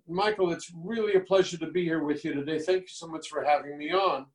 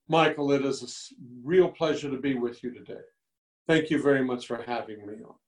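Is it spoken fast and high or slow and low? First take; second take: fast, high; slow, low. First: It is spoken fast with a high pitch. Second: It is spoken slowly with a lower pitch.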